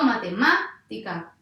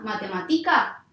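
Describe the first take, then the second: First: The stress is on the third-to-last syllable. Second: The stress is on the second-to-last syllable. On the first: The speaker calls it right. "sí" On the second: The speaker calls it wrong. "no, grave tampoco va a ser"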